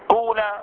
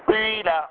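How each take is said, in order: First: The first vowel is a pure oo sound. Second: The first vowel is ee tinged with oo. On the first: "إخلاص ضم أوله فيجب قلب الألف واو" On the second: "إشمام الكسر شيئا من الضم"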